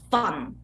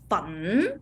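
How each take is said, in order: First: The syllable is said on a very low pitch. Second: The syllable is said with a rising pitch. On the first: "really lowest tone" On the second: "is the raising tone"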